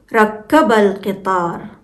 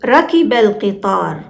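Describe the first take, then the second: First: Rakkaba with the k of ركب held double; ركب with shadda, a long kk then a; doubled k, rakkaba. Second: Rakiba with a short, single k and an i after it in ركب; ركب read as rakiba, undoubled k. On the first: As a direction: say ركب as rak-ka-ba, pausing on the k. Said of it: "the shadda on k changes the meaning". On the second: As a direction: say ركب lightly as ra-ki-ba, no doubling. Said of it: "when we pronounce it as". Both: Shown as a demonstration.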